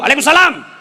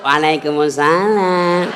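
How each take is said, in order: First: It is said loudly and firmly, without lilting. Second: It is said softly, in a seductive, lilting way.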